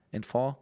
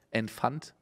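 First: "Enfant" with silent final t, rising; French-style pronunciation. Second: "Enfant" read as spelled, final t sounded, rising; German spelling pronunciation. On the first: Reader tries the word once more, "Enfant" French-style without final t. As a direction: ask "Enfant" ending on an open "on". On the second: Reader tests a French word, "Enfant" with sounded final t. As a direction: softly ask "Enfant" with hard "ant" ending. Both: Real, not acted. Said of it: "wie man das Wort ausspricht".

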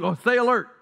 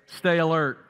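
First: Higher, louder startled "stay alert"; mock jolted awake. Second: Said in the usual way. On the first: Shown as a demonstration. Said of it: "Somebody just woke up". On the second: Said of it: "What are the first two words".

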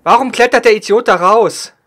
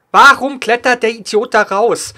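First: Loud angry yell, stress on der; man down shout. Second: Slow angry yell, stress on Warum; man down shout. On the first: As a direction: shout it at the teammate. Teammate climbs out, frustrated. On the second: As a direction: drag out the angry question. Repeats the same complaint. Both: Real, not acted.

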